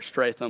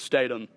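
First: An r sound follows the opening st. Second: No r sound follows the opening st. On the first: The speaker calls it wrong. "A lot of people like to put an R in there and say Stratham" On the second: The speaker calls it right. "But it's Statham"

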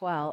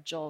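First: The name is pronounced the Spanish way. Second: The name is pronounced the English way.

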